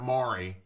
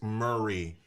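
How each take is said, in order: First: The name sounds like 'Maury', with an 'aw' vowel. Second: The name sounds like 'Murray', with an 'ur' vowel. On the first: This is how newcomers say it. The speaker calls it wrong. "not Maury" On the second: This is how locals say it. The speaker calls it right. "it's Murray"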